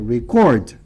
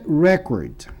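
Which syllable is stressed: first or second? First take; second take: second; first. First: The stress is on the second syllable. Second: The stress is on the first syllable. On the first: It names an action, to register. "Se for verbo é record" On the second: It names a thing, a register. "Se for substantivo é record"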